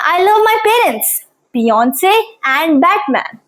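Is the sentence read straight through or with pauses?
with pauses. The sentence has pauses separating each listed item. Three separate things are loved. The speaker calls it right. "With punctuation"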